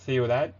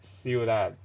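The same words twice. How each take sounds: First: The c is pronounced as a th sound. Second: The c is pronounced as an s sound. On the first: This is how it is said in Spain. "But in Spain Spanish" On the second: This is how it is said in South America. "the C is always pronounced like S"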